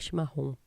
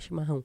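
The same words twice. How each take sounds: First: It is said in a put-on regional accent. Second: It is said in the speaker's plain accent.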